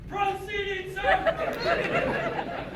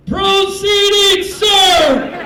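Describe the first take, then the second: First: A faraway parade-ground cry, held back; replayed holler. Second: Full-force high, drawn-out shout; very loud, slow parade-ground yell; military holler. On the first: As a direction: squeal the shout softly, high and drawn out. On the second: Retold or imitated. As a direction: bellow it across a crowded shop. Airman hollers across the shop.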